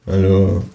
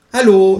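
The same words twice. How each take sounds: First: Said in the usual way. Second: High, loud kangaroo hello. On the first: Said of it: "sag ich". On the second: A narrator's reading. Kangaroo greets the neighbour at the door, high voice. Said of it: "sagt das Känguru".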